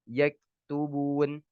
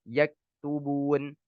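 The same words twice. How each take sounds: The two takes are said the same way.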